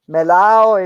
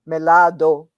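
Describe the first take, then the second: First: The ending is ow, with no d sound. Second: The ending is ado, with the d sound. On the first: This is the everyday Cuban way of saying it. "We say ow" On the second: This is the full form Cubans do not use. "We don't say ado"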